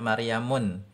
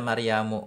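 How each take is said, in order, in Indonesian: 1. Kata ini diakhiri dengan bunyi n tambahan. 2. Kata ini diakhiri tanpa bunyi n tambahan. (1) "Jangan kita baca Maryamun" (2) "tapi kita baca Maryamu"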